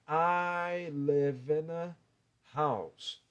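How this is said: There is a break between the words. The speaker calls it wrong. "Eu não posso fazer ... Eu não posso dar essa pausa, fica estranho"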